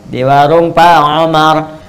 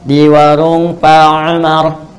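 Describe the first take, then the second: The two takes are said the same way.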